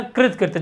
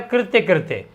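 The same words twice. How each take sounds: First: कृत कृत्य, first word ending on a bare "t"; correct form कृत कृत्य. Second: कृत्य कृत्य, both ending in "tya"; wrong doubled कृत्य. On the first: Teacher correcting students, कृत कृत्य with "tya" only once. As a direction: stop कृत on "t", then say कृत्य. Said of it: "इसको लिखना है कृत कृत्य". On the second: Teacher showing the error, कृत्य कृत्य with "tya" twice. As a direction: give both words of कृत्य कृत्य the same ending. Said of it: "जबकि कृत्य कृत्य नहीं". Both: Shown as a demonstration.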